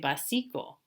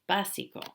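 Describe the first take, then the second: First: The stress is on the middle syllable. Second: The stress is on the first syllable. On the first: The speaker calls it wrong. "If we didn't have it, you would say básico. No, no, no" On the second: The speaker calls it right. "the stress is not on the second to the last syllable"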